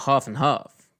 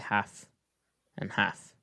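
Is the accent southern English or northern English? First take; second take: southern English; northern English. First: It is said in a southern English accent. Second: It is said in a northern English accent.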